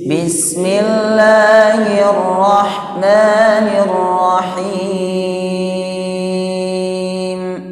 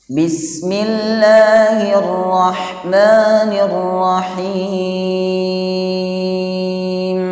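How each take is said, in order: No difference in how they are said.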